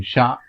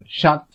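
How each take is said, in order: First: "chat" as French "sha", silent t; French masculine chat. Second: "chat" as French "shaht", final t sounded; French feminine chatte. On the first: Teacher listing masculine nouns, French "chat" with silent t. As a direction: say "chat" with no final consonant. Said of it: "few examples of masculine nouns". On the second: Teacher giving the word for female cat, "chat" with sounded t. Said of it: "it's a female cat". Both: Shown as a demonstration.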